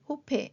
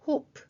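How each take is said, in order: First: A vowel sound is added after the final p. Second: The word ends on the p sound. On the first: The speaker calls it wrong. "이게 아니라" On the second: The speaker calls it right. "프까지만 소리가 났습니다"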